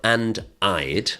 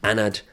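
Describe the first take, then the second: First: The two words are said separately and fully. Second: The two words are run together into one. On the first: "it's not and I'd"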